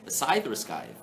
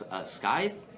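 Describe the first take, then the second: First: "scythe" first said sigh-th, then with a k; pronouncing scythe. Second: "scythe" said with a hard k, like skythe, rising; pronouncing scythe. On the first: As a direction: weigh "scythe" as sigh-th against skythe. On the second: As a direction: try "scythe" as skythe with a questioning rise. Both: Shown as a demonstration.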